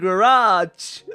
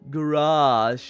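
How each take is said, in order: First: The final consonant is a hard j sound. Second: The final consonant is a soft zh sound. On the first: "The hard J that probably sounding so wrong in your ears" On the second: "I can also say garage"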